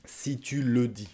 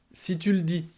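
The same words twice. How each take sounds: First: Si tu le dis with the E of le swallowed, si tu l'dis; dropped E. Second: Si tu le dis lifted much higher, falling from tu; model phrase. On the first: Teacher showing the French swallowed E in si tu le dis. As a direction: say le as a bare l. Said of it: "on mange le E". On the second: Teacher showing a dismissive si tu le dis, high-pitched. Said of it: "par les Français à l'oral". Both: Shown as a demonstration.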